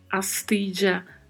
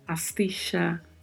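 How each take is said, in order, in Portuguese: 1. O duplo L soa como 'dj'. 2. O duplo L soa como 'sh'. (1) "Som de DJ" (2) "de X ou CH"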